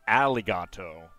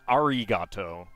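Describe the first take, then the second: First: The consonant sounds like an English l. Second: The consonant sounds like an English r. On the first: "it's not alligato" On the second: "it's not arigato"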